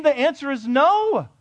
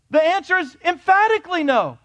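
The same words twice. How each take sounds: First: Said in the usual way. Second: "emphatically" stressed high and loud, "no" falling firm; louder, higher, insistent "emphatically no"; emphatic no. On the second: Real, not acted. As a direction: hit "emphatically" and land "no".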